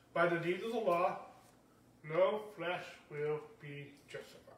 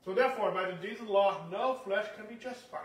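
First: Measured, emphatic scripture quote; emphatic reading. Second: Said in the usual way. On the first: Shown as a demonstration. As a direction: lean on "deeds" and "law" deliberately. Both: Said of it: "put the emphasis on this like I'm doing right now".

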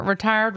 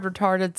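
First: "Retired" said as ree-TIRED, rhymes with fire. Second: "retarded" said ree-TAR-ded, with a long ar; "retarded" said in place of retired. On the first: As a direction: clear "Retired" with a long i. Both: Shown as a demonstration. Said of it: "same thing".

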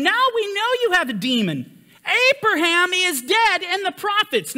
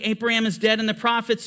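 First: Higher, raised accusing voice of the Jews; indignant Jews. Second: Said in the usual way. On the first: Retold or imitated. Jews answering Yeshua, retold.

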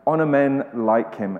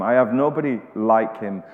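First: Honor men "like him" with "like" pressed; "like" stressed, the phrase falling to a close. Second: I have nobody "like him" with the weight on "like"; "like" stressed, falling tune at the end. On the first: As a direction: point the listener at "like". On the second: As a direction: lean on "like" and let "him" fall away. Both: Shown as a demonstration. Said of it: "the same phrase, "like him".

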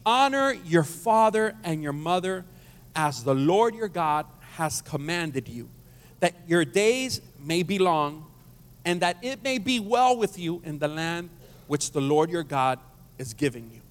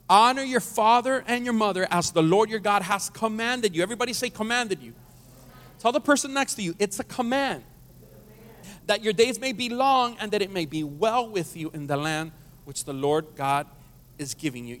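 First: Measured, slow reading of the verse; slow scripture reading. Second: Emphatic scripture reading. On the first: Pastor reading the verse to the congregation, slow and measured. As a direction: lay each phrase down slowly. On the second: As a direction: proclaim it with more force. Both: Real, not acted. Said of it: "Let's read it again".

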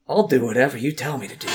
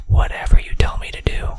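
First: Said in the usual way. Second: Loud breathy stage whisper. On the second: Pretend. Teasing viewers with a loud mock-creepy whisper. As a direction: hiss it out as a mock-creepy secret.

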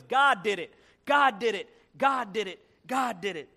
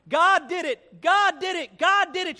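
First: Mildly excited repeated exclamation; lightly acted joyful refrain; happy. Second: High, loud ecstatic shout; acted jubilant shouting, each GOD punched. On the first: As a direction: punch GOD each time, happily. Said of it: "she got happy". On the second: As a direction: belt it out like an overjoyed churchgoer. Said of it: "now she was shouting".

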